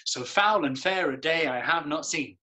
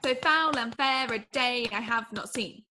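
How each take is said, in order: First: So foul and fair a day I have not seen, the beat on foul, fair, day, have, seen; verse in rhythm. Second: So foul and fair a day I have not seen copied carefully on the iambic beat; repeating the rhythm. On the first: Actor modelling the iambic line for the student, rhythmic. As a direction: speak it on the dee-dum pulse. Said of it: "Dee-dum, dee-dum". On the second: Student copying the verse line back, careful beat. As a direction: echo the teacher's dee-dum pulse. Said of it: "Try it". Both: Shown as a demonstration.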